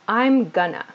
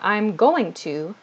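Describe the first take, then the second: First: 'Going to' is squeezed into short 'gonna'. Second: Each syllable of 'going to' is said clearly. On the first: "to sound very natural, we reduce this" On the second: "we reduce this from I'm going to"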